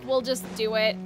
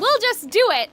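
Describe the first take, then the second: First: It is said flatly, without enthusiasm. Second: It is said brightly, with enthusiasm. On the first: The speaker is reluctant to do it. The speaker calls it wrong. "that didn't sound very enthusiastic" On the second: The speaker is eager to do it. The speaker calls it right. "Exclamation point"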